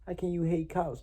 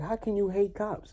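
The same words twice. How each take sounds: First: High, mocking imitation of people; a lighter pitched-up parody; mocking quote. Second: High, mocking imitation of a critic; mocking quote. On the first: Retelling what people ask him, high mock voice. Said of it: "people be like". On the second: Mocking people who question him, high mimicry. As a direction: parrot them in a pitched-up voice. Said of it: "you like".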